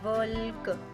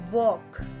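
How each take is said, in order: First: It has a short vowel and a clear L. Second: It has a long O vowel and no L. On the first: The speaker calls it wrong. "वल्क नहीं होता" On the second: The speaker calls it right. "ये ओ की आवाज दे दी इसने"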